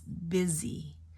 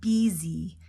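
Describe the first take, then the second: First: The first vowel is a short I sound. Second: The first vowel is a long E sound. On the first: The speaker calls it right. "short I" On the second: The speaker calls it wrong. "It's not busy"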